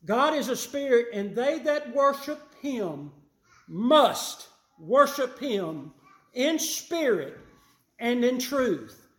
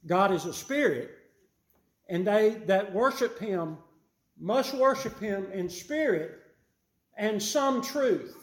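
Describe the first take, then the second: First: Louder and higher, slowing on "must worship him" and "and in truth"; emphatic correct reading. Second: Stretching out "and some truth" with a sly lift on "some"; mock misquote. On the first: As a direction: hammer each word of the true verse home. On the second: Preacher misquoting the verse to expose the error, lifting "some". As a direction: lean on "some" as if it belonged in the verse. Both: Shown as a demonstration. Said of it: "That is not what it says, is it?".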